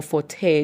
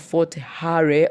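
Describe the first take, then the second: First: "Hare" as one syllable, like "hey"; alternative pronunciation. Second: "Hare" said in two syllables, HAH-reh; alternative pronunciation. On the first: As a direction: say "Hare" without the r, just "heh". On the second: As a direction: say "Hare" as "ha-re", sounding the final e. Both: Shown as a demonstration. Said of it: "how you choose to pronounce it".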